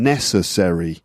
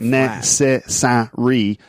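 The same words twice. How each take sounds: First: The unstressed vowels are weak schwa sounds. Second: The unstressed vowels are said fully. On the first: The speaker calls it right. "the vowel sounds become very weak. A lot of schwa sounds" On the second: The speaker calls it wrong. "So it's not"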